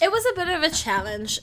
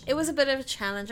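First: Loud and high. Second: Quick unvoiced whisper. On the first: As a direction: say it out big and loud. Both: Shown as a demonstration.

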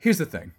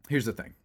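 First: Louder, higher emphatic opener. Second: Said in the usual way. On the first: Real, not acted. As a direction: punch it out to grab attention.

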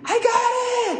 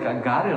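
First: Very high mock shriek; imitated scream. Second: Said in the usual way. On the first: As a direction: shriek it like the excited woman. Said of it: "she starts screaming".

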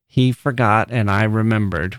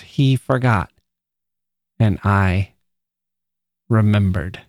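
First: Said in the usual way. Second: "He forgot," then a long pause, "and I" held, then "remembered"; pauses after forgot and I. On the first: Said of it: "with no punctuation is perfectly acceptable". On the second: Shown as a demonstration. Teacher showing the class how Dickinson's dashes shift the emphasis, with pauses. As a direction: let the dashes hang in the silence before "remembered". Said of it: "The emphasis there shifts".

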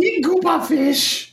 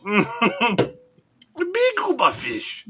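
First: High, slow, goofy alien voice; Jar Jar voice. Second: Very slow, high, goofy gungan drawl; Jar Jar voice. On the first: Cohost mimics Jar Jar, high and slow. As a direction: drag it out in a silly high gungan voice. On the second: Host echoes Jar Jar very slowly, high and goofy. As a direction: stretch every word out, silly and high. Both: Pretend. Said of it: "Jar Jar, man".

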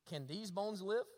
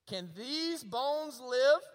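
First: Said in the usual way. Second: "these bones live" slow, drawn out and louder; "these" and "live" held long and strong in a preacher's question; emphatic repeat. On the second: Acted. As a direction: stretch each word of "Can these bones live", rising on "live".

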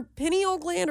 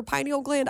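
First: "pineal" starting like "pin"; short-i pineal. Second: "pineal" starting like "pine"; long-i pineal. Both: Real, not acted. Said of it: "I can't even pronounce it".

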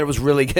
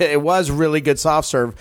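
First: Said in the usual way. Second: "was" stressed to confirm it; emphatic "was", conceding he was right. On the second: Real, not acted. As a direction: lean on "was" in agreement.

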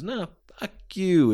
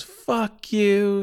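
First: High-pitched mock retort; acted heated comeback. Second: High-pitched mock outrage; acted defiant curse. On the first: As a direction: throw the insult right back. Heel retorting to mom. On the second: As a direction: spit it back as the insulted mom. Mom cursing back at heel.

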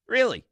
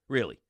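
First: Incredulous. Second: Said in the usual way. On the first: Real, not acted. Host to listeners, incredulous at the player. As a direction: let the disbelief jump up. Host repeats question in disbelief.

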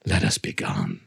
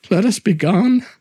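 First: Much lower, softer cold echo; cold mocking echo. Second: Higher, louder pleading; anxious plea. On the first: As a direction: echo him back deep and cold. Montresor coldly echoes plea. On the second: Acted. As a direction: ask urgently to leave. Fortunato pleads to leave.

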